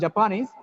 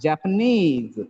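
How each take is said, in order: First: The stress falls before the last syllable. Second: The stress falls on the last syllable. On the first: The speaker calls it wrong. "It's not Japanese" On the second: The speaker calls it right. "it's Japanese. The last syllable is stressed"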